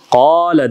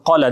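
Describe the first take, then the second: First: The vowel is stretched over two counts. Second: The vowel is cut short, not stretched. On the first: The speaker calls it right. "Qala deb sozup aytat" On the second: The speaker calls it wrong. "hiç kaçan qala deb aytpayt"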